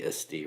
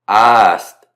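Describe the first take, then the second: First: It has plain Latin vowels. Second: It has a stretched Mississippi Southern drawl.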